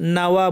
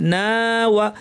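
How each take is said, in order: First: The 'na' vowel is short and runs into 'wa'. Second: The 'na' vowel is stretched before 'wa'. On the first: The speaker calls it wrong. "নাওয়া বলবেন না" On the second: The speaker calls it right. "না কারণ এর পর আলিফ আছে"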